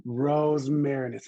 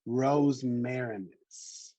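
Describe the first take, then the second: First: Rosmarinus again, slow and louder, roz-MAIR-in-us; slow repeat, louder. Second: Rosmarinus very slow, roz-MAIR-in-us, each syllable apart; slow careful model. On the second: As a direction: sound out Rosmarinus slowly, roz-MAIR-in-us, for learners. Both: Shown as a demonstration. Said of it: "we can get through it together".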